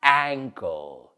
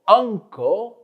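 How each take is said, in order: First: Ankle said ANG-kul, lower; "ankle" for repeating, clearly voiced; careful model pronunciation. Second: Uncle said UNG-kul, pitched high; "uncle" for repeating, clearly voiced; careful model pronunciation. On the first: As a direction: say ankle with the vowel of cat. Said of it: "y la otra palabra". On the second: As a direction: say uncle with the vowel of cup. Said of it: "dilo tú conmigo". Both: Shown as a demonstration.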